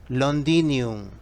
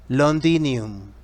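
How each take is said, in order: Both takes have the same delivery.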